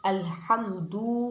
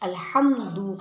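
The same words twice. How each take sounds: First: The final vowel is stretched long. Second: The final vowel is short. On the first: The speaker calls it wrong. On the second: The speaker calls it right.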